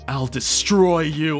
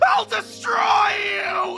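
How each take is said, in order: First: It is said at a moderate, restrained volume. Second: It is said with exaggerated, cartoonish dramatic tonality. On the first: "don't go too loud, just make it emulate the idea" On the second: "over the top, dramatic, like weird tonality"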